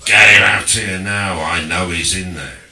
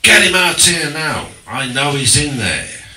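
First: Loud, insistent mock Cockney repeat; Cockney bloke. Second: Loud, higher mock Cockney demand; Cockney bloke. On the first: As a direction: hammer the demand again in Cockney. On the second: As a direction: bark it like a rough Cockney bloke at the door. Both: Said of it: "So, this bloke".

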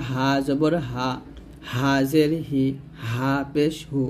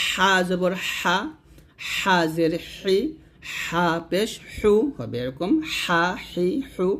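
First: "হা জবর হা" with a light, unpressed h; light soft h. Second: Slow "হা হি হু" with tight, pressed friction; pressed Arabic Ha. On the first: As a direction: breathe "হা", "হি", "হু" out easily, no squeeze. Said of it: "শুরু থেকে উচ্চারণ করতে হবে হালকা করে". (হালকা করে "হা" উচ্চারণ) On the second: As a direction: squeeze a thin stream of air through each drawn-out "হা". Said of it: "এই হাটা আমরা চাপ দিয়ে বলবো". ("হা" চাপ দিয়ে, চিকন বাতাসে) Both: Shown as a demonstration.

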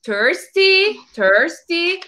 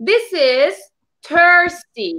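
First: "thirsty" said higher, pleading; parched thirsty voice; acting thirsty. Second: Thirsty. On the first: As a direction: act out being thirsty. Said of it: "I am". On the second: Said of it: "Now I want to show you some feelings". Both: Shown as a demonstration.

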